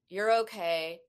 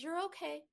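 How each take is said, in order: First: It is said in a dismissive, flat tone. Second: It is said in a warm, comforting tone.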